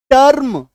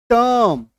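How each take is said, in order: First: टर्म with a clearly pronounced R, higher and louder; टर्म punched out with every consonant sounded; full R sound. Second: टर्म with the R almost dropped, like "tuhm"; टर्म as a long vowel closing on M; semi-silent R. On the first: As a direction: hit the R firmly in टर्म. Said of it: "पूरी तरीके से आपको इसको उच्चारित नहीं करना". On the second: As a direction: glide through टर्म without sounding the R. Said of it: "इस तरीके से इसका उच्चारण होना है". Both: Shown as a demonstration.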